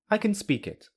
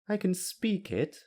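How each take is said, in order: First: The pitch falls at the end. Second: The pitch falls and then rises at the end. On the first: The person can simply speak the language. "I just said B's answer with the falling intonation" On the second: The person can speak it but cannot read or write it. "now I'll say it with the falling rising intonation"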